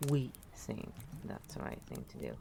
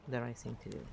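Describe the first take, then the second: First: "We" stretched and stressed at the start. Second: Said in the usual way. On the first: Shown as a demonstration. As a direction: lean hard on "We". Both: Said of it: "Who is we?".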